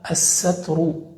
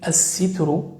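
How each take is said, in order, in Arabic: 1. يتبع السين صوت a. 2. يتبع السين صوت i. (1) "بفتح السين" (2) "بكسر السين"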